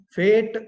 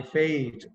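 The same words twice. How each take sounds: First: FATE with one long 'ehh', loud; wrong pure vowel. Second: FATE with a gliding 'eh-ee' vowel; correct diphthong. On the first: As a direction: say FATE as "feht", loud and without a glide. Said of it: "So it's not date". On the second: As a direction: glide through the vowel of FATE, "fe-it". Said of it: "That's called a diphthong". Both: Shown as a demonstration.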